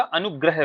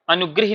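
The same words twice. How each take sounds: First: अनुग्रह said as anu-gra-h; correct gra sound. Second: अनुग्रह said as anu-gri-hi; wrong gri sound. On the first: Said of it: "क्या होता है आपका". (अनुग्रह, ग्र में अ के साथ) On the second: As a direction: put i vowels in अनुग्रह, ending gri-hi. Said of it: "अनुग्रह नहीं होता है". (अनुग्रह को अनुगृही जैसा बोलें) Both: Shown as a demonstration.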